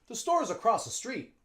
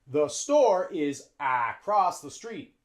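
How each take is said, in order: First: Store's is contracted and linked to the next vowel. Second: Store and is are said as two full words. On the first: The speaker calls it right. "We use the contraction" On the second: The speaker calls it wrong.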